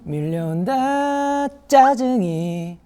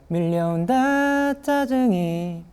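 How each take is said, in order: First: The word 짜증이 starts with a forceful, pushed onset. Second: The word 짜증이 starts with a plain, ordinary onset. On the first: The speaker calls it right. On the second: The speaker calls it wrong.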